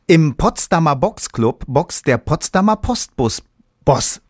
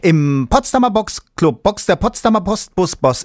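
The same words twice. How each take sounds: First: It is said rather slowly. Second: It is said very fast.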